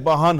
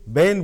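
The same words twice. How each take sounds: First: It is said in a Banaras accent. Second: It is said in a Delhi accent. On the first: "Banaras आते आते बहन हो जाता है" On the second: "Delhi में बहन को बहन बोला जाता है। ... ए का साउंड इफेक्ट होता है"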